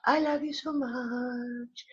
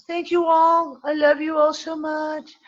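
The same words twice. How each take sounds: First: High, soft, very drawn-out singsong; soft affection. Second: High, drawn-out, gushing farewell; sing-song it fondly, stretching the words; affectionate singsong. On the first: Host repeating love to listeners, soft slow singsong. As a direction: let it float out slowly and tenderly. Repeats the farewell much more softly. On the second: Host thanking everyone at sign-off, high affectionate singsong. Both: Real, not acted.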